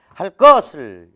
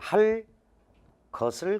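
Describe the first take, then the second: First: The words join and g becomes a tense kk. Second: A pause separates the words and g stays plain. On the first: "기역이 쌍기역으로 교체가 된 겁니다" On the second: "이렇게 띄어, 띄어서 읽으면 된소리가 없어"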